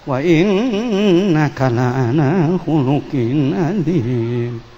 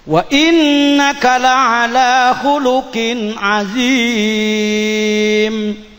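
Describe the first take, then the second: First: The verse is recited in an unpleasant voice. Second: The verse is recited in a pleasing voice. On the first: Listeners are not moved to praise God. The speaker calls it wrong. "tajwidnya bagus, suaranya jelek ... Allahnya hilang" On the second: Listeners are moved to praise God. The speaker calls it right. "Oh, itu nikmatnya"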